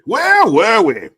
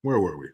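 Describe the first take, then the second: First: Very high, loud, drawn-out mock cry; hammed-up shout. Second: Said in the usual way. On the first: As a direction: blare the question out in a silly high voice. Repeats own question in hammed-up shout.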